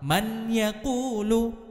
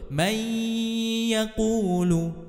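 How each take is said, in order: First: The n is pronounced clearly before the y. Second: The n merges into the y with a nasal hum. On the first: The speaker calls it wrong. "bunyi nun sukun atau tanwinnya masih terbaca jelas ... ini salah" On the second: The speaker calls it right. "Yang betul"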